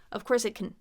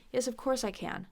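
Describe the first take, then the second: First: CAN swallowed to "kn" at the end; reduced final can. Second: Final CAN with its full open vowel; unreduced can. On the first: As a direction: clip the final CAN with no vowel. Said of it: "don't wanna reduce it here". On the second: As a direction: say CAN completely at the end. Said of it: "don't wanna reduce it". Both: Shown as a demonstration.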